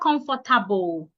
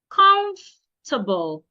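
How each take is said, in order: First: The middle O and R sounds are pronounced. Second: The middle O and R sounds are dropped. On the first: The speaker calls it wrong. "It's not" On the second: The speaker calls it right. "The O and the R should not be said"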